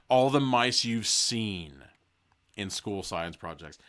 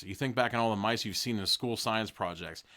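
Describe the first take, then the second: First: Very slow, leaning on each word; slow emphatic repeat. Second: Said in the usual way. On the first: Shown as a demonstration. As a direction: drag out all the mice you've seen.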